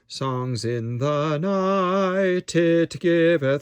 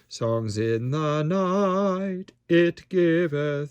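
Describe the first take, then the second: First: "Night" runs smoothly into "it" without a break. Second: A glottal stop separates "night" from "it". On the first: The speaker calls it wrong. "we don't want" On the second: The speaker calls it right. "So a little glottal stop"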